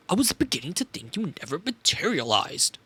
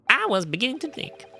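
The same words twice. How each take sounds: First: Mock German professor voice. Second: Evil Professor German voice. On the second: Acted. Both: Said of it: "evil Professor German voice".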